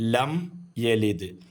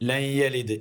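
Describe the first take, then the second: First: The first word ends with closed lips, m. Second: The first word ends with an n sound. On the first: The speaker calls it right. "മീമിന് വേണ്ടി നമ്മൾ ചുണ്ട് പൂട്ടണം" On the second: The speaker calls it wrong. "തെറ്റാണത്"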